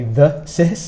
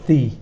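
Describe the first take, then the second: First: The first vowel is short. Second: The first vowel is long. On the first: The speaker calls it wrong. "some people might say the sis" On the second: The speaker calls it right. "You make this a long sound in the middle"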